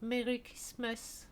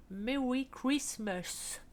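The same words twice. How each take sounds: First: Said in the usual way. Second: Slow, drawn-out English accent; a jokey put-on English accent; mock English accent. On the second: Shown as a demonstration. English accent to her viewers, slowly drawn out. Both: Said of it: "mon accent superbe anglais".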